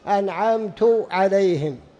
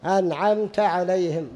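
First: The verb ends with a 'u' vowel. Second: The verb ends with an 'a' vowel. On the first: The one speaking did the bestowing. The speaker calls it wrong. "أنعمت للمتكلم، كأن الإنسان يقول: أنا أنعمت" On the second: Someone else did the bestowing. The speaker calls it right. "لكن الذي أنعم هو الله"

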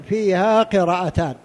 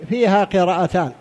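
Both takes have the same delivery.

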